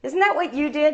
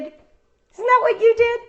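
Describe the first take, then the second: First: Said in the usual way. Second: "that" stressed, high and slow; emphatic question. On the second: Shown as a demonstration. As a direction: lean hard on "that" slowly and up high.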